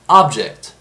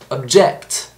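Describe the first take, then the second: First: The stress is on the first syllable. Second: The stress is on the second syllable.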